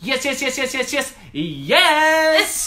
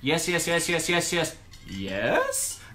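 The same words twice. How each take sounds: First: It is said as an excited exclamation. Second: It rises at the end like a question.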